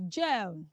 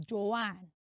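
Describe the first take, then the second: First: "Joan" as one syllable, rhyming with bone; proper pronunciation. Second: "Joanne" as two syllables, jo-AN; common mispronunciation. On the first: Teacher revealing the name to children, properly pronounced "Joan". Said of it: "That name is properly pronounced as". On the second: Teacher showing children the popular wrong way, mispronounced "Joanne". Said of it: "most of us pronounce the name as". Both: Shown as a demonstration.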